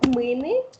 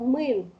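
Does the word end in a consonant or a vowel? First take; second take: vowel; consonant. First: The word ends in a final vowel. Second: The final vowel is dropped. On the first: This is the full form. "длинная основа" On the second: This is the casual spoken form. "в разговорной речи вот эта «ы», она часто отпадает"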